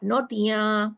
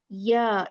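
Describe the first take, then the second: First: The ya sound is nasalized. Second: The ya sound is plain, without nasalization. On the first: The speaker calls it wrong. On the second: The speaker calls it right.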